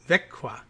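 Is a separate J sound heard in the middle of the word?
no. No separate J sound is heard mid-word. "is apparently pronounced Växjö, like that"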